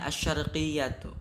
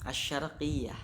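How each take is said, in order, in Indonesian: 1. Kata ini berakhir dengan suku kata '-atu' yang penuh. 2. Kata ini berakhir dengan bunyi '-ah' yang terpotong. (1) "Itu ketika ditulis" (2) "ketika diucapkan asyarqiyah"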